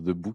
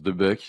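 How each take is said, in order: First: The second word has an 'oo' vowel, like book. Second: The second word has an 'uh' vowel, like buck. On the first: This is how Belgians say it. "les Belges prononcent" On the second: This is how French people say it. "les Français prononcent"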